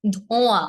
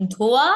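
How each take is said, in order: First: "ধোঁয়া" with the vowels sent through the nose; nasalised vowel. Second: Said in the usual way. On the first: Shown as a demonstration. Teacher contrasting chandrabindu for students, nasalised. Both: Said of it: "এই গেল চন্দ্রবিন্দুর উচ্চারণগুলো".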